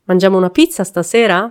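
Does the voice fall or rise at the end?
rises. The voice rises at the end.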